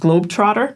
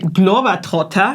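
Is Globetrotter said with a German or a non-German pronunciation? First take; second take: non-German; German. First: The name is said with a non-German pronunciation. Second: The name is said with a German pronunciation. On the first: This is the brand's own name. The speaker calls it right. "but actually the brand is Globetrotter" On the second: This is how locals say the brand name. The speaker calls it wrong. "that's how Germans pronounce it"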